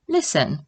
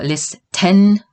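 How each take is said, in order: First: The T sound is left out. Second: The T sound is clearly pronounced. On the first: The speaker calls it right. "The T is silent here" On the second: The speaker calls it wrong. "We do not pronounce it"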